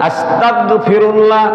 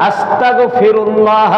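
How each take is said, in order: No difference in how they are said.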